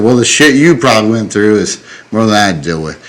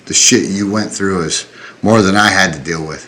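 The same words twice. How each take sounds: First: Quicker reply with YOU punched; stress on YOU. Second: Said in the usual way. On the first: Retold or imitated. Veteran turning the compliment back on him, stress on YOU. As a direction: throw it back, leaning on "you".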